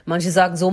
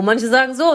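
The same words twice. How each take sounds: First: Said in the usual way. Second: "so" lifted with rising tune; stress on so. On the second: Shown as a demonstration. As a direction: end "so" rising and louder.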